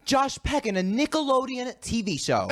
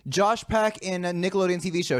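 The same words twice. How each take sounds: First: High-pitched mimicked repetition; question repeated as answer. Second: Said in the usual way. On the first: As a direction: echo the clue back confidently, pitched high. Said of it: "repeats the question, but, like, as an answer". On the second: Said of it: "when she repeats the question".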